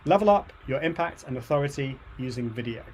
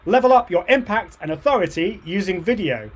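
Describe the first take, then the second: First: It is said with calm, low energy. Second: It is said with clearly raised energy.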